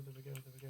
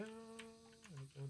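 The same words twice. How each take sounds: First: Said in the usual way. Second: High, slow, soft singsong coo; drawn-out singsong. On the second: Real, not acted. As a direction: stretch it out softly and sing it up high.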